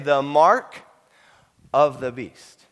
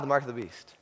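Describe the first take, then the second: First: The phrase is said slowly. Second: The phrase is said quickly. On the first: "slow it down" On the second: "they say it really quickly?"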